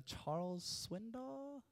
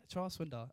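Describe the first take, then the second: First: "Charles Swindoll" drawn out slowly, rising high at the end; hesitant, soft "Charles Swindoll" with a long upward lift; unsure question. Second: Said in the usual way. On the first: Real, not acted. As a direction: softly guess "Charles Swindoll?", pitch climbing into a question. Unsure of the quoted pastor's name.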